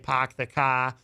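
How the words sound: The R sounds are dropped, New England style.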